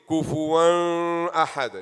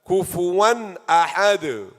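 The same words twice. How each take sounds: First: The N is nasalized and held into the next word. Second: The N is pronounced clearly before the next vowel. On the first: The speaker calls it wrong. "You don't do any gunna. You don't say" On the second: The speaker calls it right. "So this is izhar"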